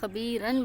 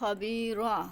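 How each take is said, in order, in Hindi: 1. शब्द के आख़िर में n की आवाज़ है। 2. शब्द लंबे 'a' पर खत्म होता है, कोई n नहीं। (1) "खाली एक लफ्ज़ को पढ़ेंगे तो ये खबीरन बढ़ेगा" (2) "अगर वक्फ़ करना होगा तो आप इसको जस्ट खबीरा पढ़ेंगे"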